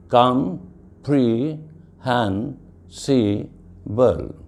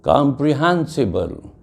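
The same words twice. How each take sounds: First: "com-pre-hen-si-ble" very slowly, each syllable on its own; "com-pre-hen-si-ble" spaced out as five separate syllables. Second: Said in the usual way. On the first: Shown as a demonstration. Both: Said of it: "I give the example of polysyllables".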